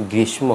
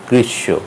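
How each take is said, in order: First: গ্রীষ্ম with m after "sh"; sounded m. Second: গ্রীষ্ম with doubled "sh", no m; গ্রীষ্ম ending in long "shsho"; silent m. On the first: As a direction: say গ্রীষ্ম as "grish-mo". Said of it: "হবে না". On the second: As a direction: say গ্রীষ্ম as "grish-sho". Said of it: "হবে". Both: Shown as a demonstration.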